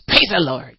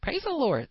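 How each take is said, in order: First: It is said harshly, nasty and biting. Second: It is said gently and humbly.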